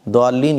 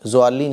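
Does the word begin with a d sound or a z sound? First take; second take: d sound; z sound. First: The first sound is a stopped d. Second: The first sound is a buzzing z. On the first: "द्वालीन ये भी गलत है" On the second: "ज़ालीन ज़ालीन ये भी गलत है"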